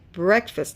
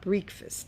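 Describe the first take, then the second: First: The first vowel is a short eh sound. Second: The first vowel is a long ee sound. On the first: The speaker calls it right. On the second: The speaker calls it wrong. "not breakfast"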